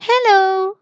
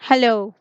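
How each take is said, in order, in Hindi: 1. यह मीठा और कोमल लगता है। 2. यह ठंडा और रूखा लगता है। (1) "cute little baby in a stroller" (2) "Because we don't like that person"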